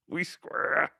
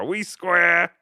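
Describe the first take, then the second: First: Whisper. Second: Said in the usual way. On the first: Shown as a demonstration. Whispered repeat of "We square.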